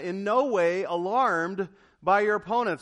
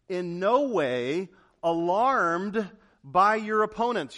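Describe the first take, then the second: First: "no" punched loud, the verse read again at normal pace; stress on no. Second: "no" stretched slow and heavy, every word of "alarmed by your opponents" weighted; stress on no. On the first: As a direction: repeat the verse, firmly stressing "no". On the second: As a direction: read the verse slowly, leaning on "no". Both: Shown as a demonstration. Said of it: "You see that?".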